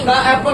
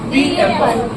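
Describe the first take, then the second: First: 'The' is said with a short 'thuh' vowel. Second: 'The' is said with a long 'thee' vowel. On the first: The speaker calls it wrong. "नहीं" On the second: The speaker calls it right. "बल्कि दी एप्पल"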